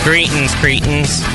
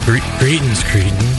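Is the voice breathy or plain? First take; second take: plain; breathy. First: It is said in a plain, unbreathy voice. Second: It is said in a breathy, wheezy voice.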